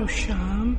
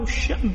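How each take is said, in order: First: No glottal stop; the vowel is long instead. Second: A glottal stop follows the first vowel. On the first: "ويقال الشام بترك الهمز" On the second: "يقال الشأم مهموز"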